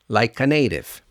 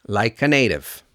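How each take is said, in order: No difference in how they are said.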